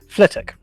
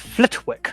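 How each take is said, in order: First: The name is said in a reduced local form. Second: The name is said fully, following its spelling. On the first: The speaker calls it right. "There's a place called" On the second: The speaker calls it wrong. "the way it's spelled is"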